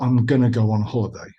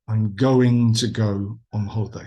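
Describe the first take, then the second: First: 'Going to' is reduced to 'gonna'. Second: 'Going to' is said fully, every sound pronounced. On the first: The speaker calls it wrong. "Not I'm going to go on holiday. ... not the the, the gonna" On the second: The speaker calls it right. "err on the side of overpronouncing"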